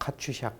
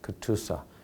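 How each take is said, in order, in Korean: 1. 'ch'와 'sh' 소리로 발음합니다. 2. 't'와 's' 소리로 발음합니다. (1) "우리 한국 사람들이 갖다 카츄샤 카츄샤라고 보통 발음을 많이 하는데" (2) "정식으로 발음은 카츄샤가 아니고 크투사"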